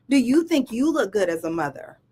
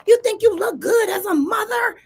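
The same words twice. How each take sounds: First: Said in the usual way. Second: High, raised-voice imitation of an angry daughter; imitating an angry comeback, pitched way up; angry retort. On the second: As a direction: fling it back as a heated challenge. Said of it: "turns back around all angry".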